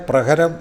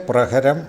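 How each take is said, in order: The two takes are said the same way.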